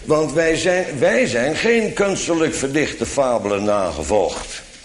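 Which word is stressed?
wij. The word wij carries strong stress. It contrasts us with others who did follow fables. "Maar bij voorkeur lees ik het anders"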